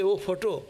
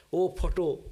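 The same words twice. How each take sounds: First: Laughing disbelief. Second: A hammed-up prayer to "photo", stretched "Oh" then "photo"; mock devotional cry. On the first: Real, not acted. Teacher asks the class through laughter, amused and doubting. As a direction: repeat "Oh, photo" through a laugh, incredulous. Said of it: "Do you say". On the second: Teacher mocks a devotee praying to a photo, lightly sing-song. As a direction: mimic a devotee sighing "Oh, photo" to a picture. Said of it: "we don't go to worship".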